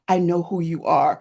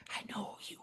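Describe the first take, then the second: First: Said in the usual way. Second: Hushed, breathy whisper in someone's ear; conspiratorial stage whisper; imitated whisper. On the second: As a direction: whisper it very softly, like a secret. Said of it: "she whispers in my ear".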